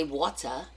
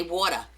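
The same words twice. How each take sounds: First: "water" with a crisp T, as WAW-tuh; non-Jersey pronunciation. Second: "water" said the Jersey way, as WAW-der; Jersey pronunciation. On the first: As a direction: say "water" with a clear t, not a d. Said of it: "We don't say water". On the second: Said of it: "because I'm a Jersey girl". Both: Shown as a demonstration.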